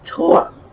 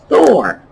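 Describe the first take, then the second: First: The name begins with a plain hard 't' sound. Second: The name begins with a soft 'th' sound. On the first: "Your Scandinavian friends are saying Tor" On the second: "you say, look"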